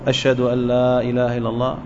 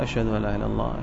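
First: The phrase is said in a raised, loud voice. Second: The phrase is said in a low, soft voice. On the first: "ثم يرفع صوته" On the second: "بلفظ منخفض بصوت منخفض"

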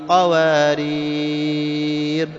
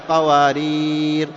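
First: The long vowel before the end is held longest. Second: The long vowel before the end is held moderately. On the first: "ثنتين أو أربع أو ست" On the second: "ثنتين أو أربع أو ست"

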